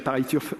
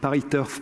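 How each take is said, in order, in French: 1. Le nom se prononce avec des sons anglais. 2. Le nom se prononce avec des sons français. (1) "et pas pareil turf" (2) "Moi, je dis pareil turf"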